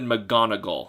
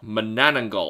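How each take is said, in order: First: The name is said with an extra hard G. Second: The name is said without an extra hard G. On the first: The speaker calls it wrong. "I add an extra G in there" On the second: The speaker calls it right. "That's how you're actually supposed to say it"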